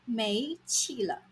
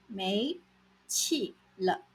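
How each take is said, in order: First: Said in the usual way. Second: 没 and 气了 separated by a pause; split into chunks. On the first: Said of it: "没 气了". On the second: Shown as a demonstration. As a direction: say 没 alone, pause, then 气了.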